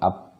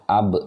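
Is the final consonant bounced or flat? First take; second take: flat; bounced. First: The final consonant stops flat with no bounce. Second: The final consonant is released with an echoing bounce. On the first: The speaker calls it wrong. "Jadi bukan ab, tidak seperti itu" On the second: The speaker calls it right. "tetapi dia dipantulkan"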